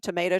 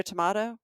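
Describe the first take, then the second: First: Tomato with a long AY, to-MAY-to; "tomato" rhyming with potato; variant pronunciation. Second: Tomato with a broad AH, to-MAH-to; variant pronunciation. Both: Shown as a demonstration. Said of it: "it's sort of like pronunciations".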